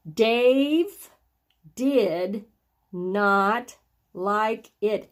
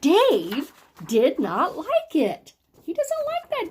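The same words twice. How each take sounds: First: Said in the usual way. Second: Slow, emphatic, swooping exclamation; excited exclamation. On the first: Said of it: "so I would read that". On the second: Shown as a demonstration. Teacher shows how an exclamation mark is read, excited. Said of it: "a little more excitement or surprise".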